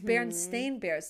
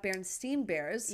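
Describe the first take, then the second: First: The name ends with a 'stain' sound. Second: The name ends with a 'steen' sound. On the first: The speaker calls it right. "it's Berenstain Bears" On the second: The speaker calls it wrong. "not Berenstain Bears"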